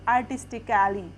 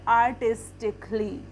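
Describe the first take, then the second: First: The vowel before the final ly is sounded. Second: The vowel before the final ly is silent. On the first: The speaker calls it wrong. "इसमें हमें ए का sound भी आ रहा है" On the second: The speaker calls it right. "इसको हम सही pronounce करेंगे क्योंकि इसमें ए साइलेंट है"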